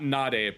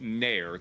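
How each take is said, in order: First: It is said with natural Japanese pronunciation. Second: It is said like the English word 'nair'. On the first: "Not Nare" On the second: "but Nair. That's how Peggy would say it"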